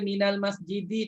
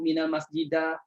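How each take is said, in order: First: The word ends with an i vowel. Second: The word ends with an a vowel. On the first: The speaker calls it right. "Dibaca minal masjidi" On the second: The speaker calls it wrong.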